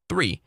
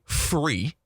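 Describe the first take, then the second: First: Said in the usual way. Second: THREE turned into FREE, starting with F; child's F for TH. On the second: Retold or imitated. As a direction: say FREE where THREE is meant. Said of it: "and they say".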